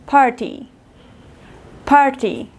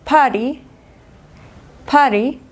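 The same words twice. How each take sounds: First: "party" with a clear true T; British "party", par-tee, falling end; British hard T. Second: "party" with T tapped away like an R; American "party", like pa-ree; American flapped T. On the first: Teacher contrasting British with American, hard T in "party". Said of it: "Inglés británico". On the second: Teacher contrasting American with British, flapped T in "party". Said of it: "Inglés americano". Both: Shown as a demonstration.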